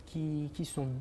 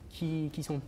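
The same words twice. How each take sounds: The two takes are said the same way.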